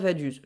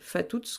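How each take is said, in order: First: The name begins with a v sound. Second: The name begins with an f sound. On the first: The speaker calls it wrong. "je sais que ça se prononce pas Vaduz" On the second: The speaker calls it right. "Je devrais sûrement dire euh, Fatuz"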